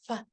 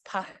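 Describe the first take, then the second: First: It starts with an f sound. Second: It starts with a breathy p sound. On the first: The speaker calls it wrong. "So it's not fa" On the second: The speaker calls it right. "No, it's just pa"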